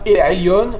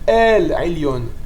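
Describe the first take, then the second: First: The phrase is said short, without lengthening. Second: The phrase is said slightly drawn out. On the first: It means toward the upper one. The speaker calls it wrong. "On ne dit pas El Ailion" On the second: It means the supreme God. The speaker calls it right. "on va rallonger un peu le mot El Ailion"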